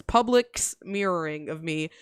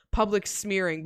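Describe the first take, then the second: First: "smearing" drawn out with an extra syllable; garbled typo reading. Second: Said in the usual way. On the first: Shown as a demonstration. Streamer reading out a voice-to-text typo, slow misread "smearing". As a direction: say "smearing" slowly, like "smear-er-ing". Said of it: "but it says". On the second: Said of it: "It's supposed to say".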